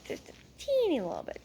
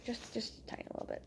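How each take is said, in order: First: High, small squeaky voice. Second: Quick, tiny whisper; whispered aside. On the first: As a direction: shrink it to a tiny high squeak. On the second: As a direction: shrink it down to a hurried whisper. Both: Real, not acted. Playfully minimising the joke.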